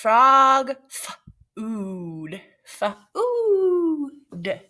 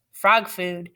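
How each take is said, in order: First: Drawn-out, sung title; dramatic title read. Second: Said in the usual way. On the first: Acted. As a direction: announce it grandly.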